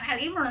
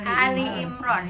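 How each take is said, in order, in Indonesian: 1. Ali dimulai dengan konsonan tenggorokan. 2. Ali dimulai dengan vokal panjang biasa. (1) "bukan Ali Imran sayang" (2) "ya keluarga"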